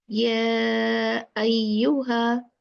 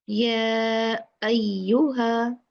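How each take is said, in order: Both takes have the same delivery.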